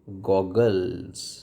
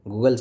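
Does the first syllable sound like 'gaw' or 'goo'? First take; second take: gaw; goo. First: The first vowel is an open 'aw' sound. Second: The first vowel is a long 'oo' sound. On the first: The speaker calls it right. "इसको बोलेंगे गॉगल्स" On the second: The speaker calls it wrong. "गूगल्स नहीं है"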